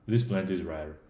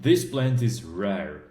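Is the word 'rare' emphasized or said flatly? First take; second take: flat; emphasized. First: The word rare is said flatly, without emphasis. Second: The word rare carries strong emphasis. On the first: Nothing in particular is highlighted. The speaker calls it wrong. "It's not like this plant is rare" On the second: The rarity of the plant is highlighted. The speaker calls it right. "it really gives the emphasis on the fact that the plant is rare"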